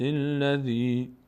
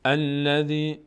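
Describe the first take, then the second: First: «الذی» chanted as "silladhi", no opening "a"; joined to previous verse. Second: «الذی» opened with a clear "al"; starting the verse. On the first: Teacher joining two verses, «الذی» run on without its first vowel. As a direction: glide straight into «الذی» from the last word, drawn out. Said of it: "اگر چسباندیم آیه رو به هم". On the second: Teacher showing a verse beginning, «الذی» with initial "a" sounded. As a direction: begin «الذی» afresh as "al-ladhi". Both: Shown as a demonstration.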